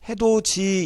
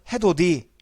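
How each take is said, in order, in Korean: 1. 마지막 음절은 j 소리로 시작합니다. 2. 마지막 음절은 d 소리로 시작합니다. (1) "우리는 이걸 지금 어떻게 읽지? 해도지" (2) "해도지가 아니고 옛날에는 해도디"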